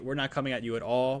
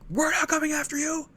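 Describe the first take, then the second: First: It is said calmly, without yelling. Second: It is yelled loudly and forcefully.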